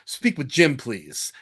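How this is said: The pitch falls at the end. It sounds authoritative. The speaker calls it right. "that downward inflection"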